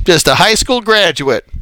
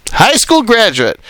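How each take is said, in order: First: Said in the usual way. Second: "High school graduate" said again, higher and pressed harder; emphatic repeat. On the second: Real, not acted. Preacher stressing "High school graduate" to his congregation. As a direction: hammer home "High school graduate" the second time.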